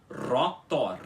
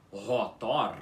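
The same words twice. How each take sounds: First: "rotor" with a trilled first R, a bit slow; correct rolled R. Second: "rotor" with a throaty H-like R; wrong guttural R. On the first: Teacher giving the right version of the word. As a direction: say "rotor" with a tongue-tip trill. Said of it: "você tem que pronunciar como relógio". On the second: Teacher showing the wrong R in the word. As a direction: say "rotor" with a throat R, not trilled. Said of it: "em vez de você pronunciar como relógio". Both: Shown as a demonstration.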